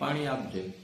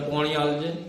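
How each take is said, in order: First: The word for water is said with an 'aa' vowel. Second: The word for water is said with an 'o' vowel. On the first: This is how we usually say it. "આપણે કહીએ" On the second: This is how people in one region say it. "Banaskantha જાઓ તો ત્યાં બધા શબ્દો થોડા ઓળા કરીને બોલાતા હોય. પાણીનું પોણી કરે"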